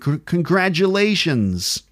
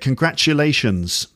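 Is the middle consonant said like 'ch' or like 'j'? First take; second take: j; ch. First: It has an American accent with a 'j' sound. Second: It has a British accent with a 'ch' sound. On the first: "And in American, ... So it's more like voiced consonant sounds" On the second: "Listen to the way I say it"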